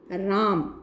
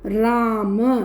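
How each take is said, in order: First: The word ends on a bare consonant. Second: The word ends with a short final vowel. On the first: "लेकिन उच्चारण राम" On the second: "राम होता है"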